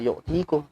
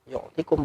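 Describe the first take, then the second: First: The vowel before -kum is drawn out long. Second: The vowel before -kum is short. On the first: The speaker calls it wrong. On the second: The speaker calls it right. "karena dia jazam"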